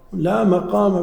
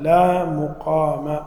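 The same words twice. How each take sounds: First: مقام said "maqām", with a after the mim; مقام opening with "ma", not "mu"; fatha on the mim. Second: مقام said "muqām", with u after the mim; slow مقام opening with "mu"; damma on the mim. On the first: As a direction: say "lā maqāma", open vowel in مقام. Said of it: "لا مقام بالفتح". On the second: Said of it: "مقام بالضم وش المعنى". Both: Shown as a demonstration.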